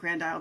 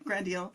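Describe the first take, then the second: First: The name is pronounced as in English. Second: The name is pronounced as in French. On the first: It is the version listeners will understand. "We call it Grand Isle because we're afraid, you know, people won't get it" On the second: It is the name's authentic local form. "but Grand Isle"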